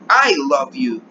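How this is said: The stress falls on the word I. It is me, and not someone else, who loves you. "¿Quién te ama? Pues yo"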